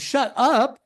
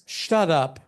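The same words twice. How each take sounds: First: It sounds like amazed, excited disbelief. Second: It sounds like a rude command to be quiet.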